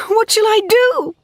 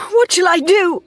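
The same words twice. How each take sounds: First: Higher still, near breaking; desperate climbing cry; cried, rising further. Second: Very high, loud desperate cry; frantic cry; cried. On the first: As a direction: despair peaking on the repeat. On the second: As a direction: plead in despair. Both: A narrator's reading. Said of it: "she cried".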